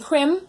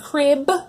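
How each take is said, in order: First: The word ends with an m sound. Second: The word ends with a b sound. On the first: The speaker calls it wrong. "they're saying crim at the end" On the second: The speaker calls it right. "instead of saying crib"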